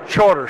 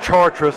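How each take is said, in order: First: The name is said like the English word charter. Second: The name is said the French way. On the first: This is how locals actually say it. The speaker calls it right. "but it's called Charter Street" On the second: This is how the spelling suggests it is said. The speaker calls it wrong. "It's spelled like it's Chartres"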